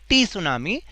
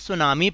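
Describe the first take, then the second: First: A t sound comes before the s sound. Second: The word starts with an s sound. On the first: The speaker calls it wrong. "टी सुनामी नहीं पढ़ेंगे" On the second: The speaker calls it right. "टी हमेशा silent रहता है, इसलिए हम इसको सुनामी पढ़ेंगे"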